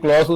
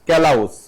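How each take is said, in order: First: One syllable with an aw vowel. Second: An extra vowel splits the opening k-l. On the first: The speaker calls it right. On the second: The speaker calls it wrong.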